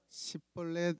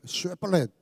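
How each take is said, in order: First: The word begins with an 's' sound. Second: The word begins with a 'sh' sound. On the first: The speaker is an Ephraimite. The speaker calls it wrong. "시벌렛 하면은 죽습니다" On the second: The speaker is not an Ephraimite. The speaker calls it right. "한번 해보자"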